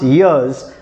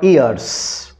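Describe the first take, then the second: First: The final sound is a buzzing Z. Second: The final sound is a hissing S. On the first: The speaker calls it right. "It is pronounced years" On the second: The speaker calls it wrong. "not years"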